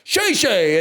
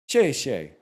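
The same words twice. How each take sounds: First: It is said louder, with more force. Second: It is said quietly, without much force. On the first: The speaker calls it right. "more confidence" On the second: The speaker calls it wrong. "she was like, "No, boo Dway,""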